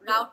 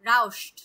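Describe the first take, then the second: First: There is no 'sh' sound before the t. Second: An 'sh' sound comes before the t. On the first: The speaker calls it wrong. "রাউট না" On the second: The speaker calls it right. "শর মতো উচ্চারণ হবে"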